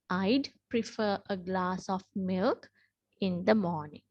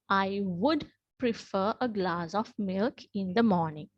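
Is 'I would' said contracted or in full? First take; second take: contracted; in full. First: The words 'I would' are contracted to 'I'd'. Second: The words 'I would' are said in full. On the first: "we have to pronounce it as I'd. We will not say would" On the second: "generally we use the word, or we tell this as I would"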